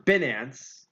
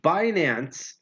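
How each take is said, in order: First: "Binance" with a short i, BIN-ance; alternative pronunciation. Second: "Binance" with a long i, BYE-nance; first pronunciation option. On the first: Host offering the other option, "Binance" as BIN-ance. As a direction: say "Binance" starting like the word "bin". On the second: Host unsure how to pronounce the exchange, "Binance" as BYE-nance. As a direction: say "Binance" starting like the word "buy". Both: Shown as a demonstration. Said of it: "how you pronounce that".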